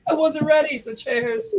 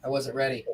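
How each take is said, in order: First: High, bright toast call; cheery toast. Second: Said in the usual way. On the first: Real, not acted. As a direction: raise your glass and call it out. Redoing the toast louder.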